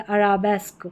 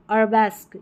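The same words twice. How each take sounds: First: "अराबेस्क" as a-RAA-besk; long middle vowel. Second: "अरबेस्क" run together as ar-BESK; short middle vowel. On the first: Teacher giving learners the alternative reading, a-raa-besk pronunciation. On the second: Teacher reading a hard spelling for learners, short ar-besk pronunciation. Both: Shown as a demonstration. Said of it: "या अराबेस्क".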